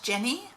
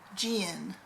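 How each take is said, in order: First: The name is said in a plain accent. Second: The name is said in a southern accent.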